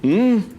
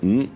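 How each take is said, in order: First: It is said in a startled, frightened way. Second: It is said in a doubtful, questioning way. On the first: The speaker got a fright. "se você assusta" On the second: The speaker doubts something. "você coloca em dúvida uma coisa, você fala"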